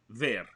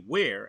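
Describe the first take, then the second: First: It is said with a Russian accent. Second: It is said with an American accent.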